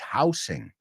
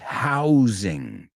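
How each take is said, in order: First: The middle consonant is a hissing s sound. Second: The middle consonant is a buzzing z sound. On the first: The speaker calls it wrong. "la S no es housing" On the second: The speaker calls it right. "it's housing"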